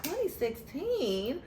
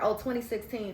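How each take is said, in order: First: Slow, higher, rising disbelief; stretched-out incredulous question; disbelieving echo. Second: Said in the usual way. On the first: Retold or imitated. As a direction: drag it out like you can't believe it. Ladies repeat the date back.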